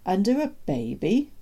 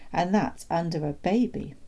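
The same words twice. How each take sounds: First: Put-on "Under a baby" higher, rising at the end; incredulous question. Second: Said in the usual way. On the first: Doctor questioning the father, "Under a baby" rising in disbelief.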